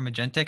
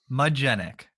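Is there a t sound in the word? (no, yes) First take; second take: yes; no. First: A t sound is heard before the final syllable. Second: No t sound is heard before the final syllable. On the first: The speaker calls it wrong. "you hear Magentic" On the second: The speaker calls it right. "But there is no T in it. It's Magenic"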